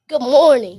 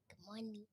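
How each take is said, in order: First: It is said loudly, projected. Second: It is said quietly, too low.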